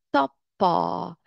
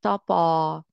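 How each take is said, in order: First: تاپا slow, with a hard held double p; تاپا with forceful doubled p and long last vowel; doubled consonant. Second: تاپا, p not doubled; single consonant. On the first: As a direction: stop on the p, then release it: تاپ-پا. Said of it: "دو تا داریم با شدت تلفظ کنید". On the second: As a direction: say تاپا lightly, no hold on the p. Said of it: "سعی کنید همون جوری تلفظ کنید". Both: Shown as a demonstration.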